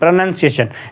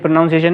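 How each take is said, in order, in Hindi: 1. दूसरे अक्षर में छोटा 'uh' स्वर है। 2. दूसरे अक्षर में पूरा 'ow' स्वर है। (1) "ओ को जो है ना छोटा थोड़ा कम पढ़ते हैं" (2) "ये प्रोनाउंसिएशन नहीं होता"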